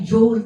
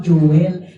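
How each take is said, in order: First: The name is said the American way. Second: The name is said with Filipino, vowel-emphasized pronunciation. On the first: This is the original pronunciation. The speaker calls it right. "yung route pronunciation ay Joel talaga" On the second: This is the local adaptation. The speaker calls it wrong. "hindi po Joel"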